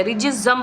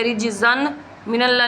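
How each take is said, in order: First: "रिजज़म" ending in a held m, no n heard; correct merged tanween. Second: "रिजज़न मिनल्ला" with a clear n before the m; incorrect unmerged tanween. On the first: Teacher restates the correct reading, "रिजज़म" with n merged into m. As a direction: close "रिजज़म" on a long humming meem. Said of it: "रिजज़म पढ़ेंगे". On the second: Teacher shows what not to read, "रिजज़न मिनल्ला" unmerged. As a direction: keep the n separate in "रिजज़न मिनल्ला". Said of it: "नहीं पढ़ेंगे". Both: Shown as a demonstration.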